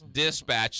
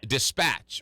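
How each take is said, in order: First: The stress is on the first syllable. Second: The stress is on the second syllable. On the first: The speaker calls it wrong. "So I get the the the emphasis on the first syllable" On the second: The speaker calls it right. "the accent is on the second syllable"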